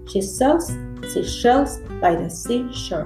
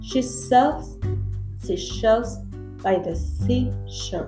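First: It is said at a quick pace. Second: It is said at a slower pace.

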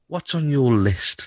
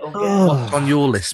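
First: A put-on Santa voice that sounds creepy. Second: A put-on Santa voice that sounds friendly. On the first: The speaker calls it wrong. "That voice you did there, I wouldn't let my daughter anywhere near you" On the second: The speaker calls it right. "That voice, not your creepy one"

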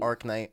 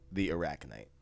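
First: The name is said with two syllables. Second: The name is said with three syllables. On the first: The speaker calls it wrong. "Arknight is not phonetically correct" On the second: The speaker calls it right. "I'm going to say it right this time"

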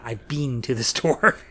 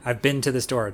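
First: 'Been' has a long vowel, like 'bean'. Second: 'Been' has a short vowel, like 'bin'. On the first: This is how British speakers say it. The speaker calls it wrong. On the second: This is how Americans say it. The speaker calls it right.

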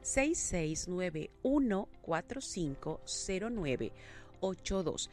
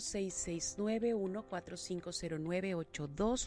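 First: It is read more slowly. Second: It is read at normal speed.

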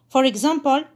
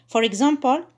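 No difference in how they are said.

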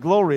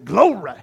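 First: The word is said plainly, without extra emphasis. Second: The word is said with dramatic, drawn-out emphasis. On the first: The speaker calls it wrong. "It's not just glory" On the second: The speaker calls it right. "you got to say it the right way"

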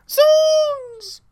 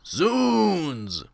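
First: It is yelled very loudly. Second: It is said weakly, without force.

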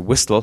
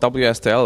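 First: It is said as one word, whistle. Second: It is spelled out letter by letter.

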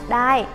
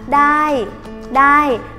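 First: The word is read with a plain, as-written tone. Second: The word is said with a Thai-style tone. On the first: "Ở trên bảng Duyên ghi là đai" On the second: "mình âm điệu cho giống người Thái thì là đai"

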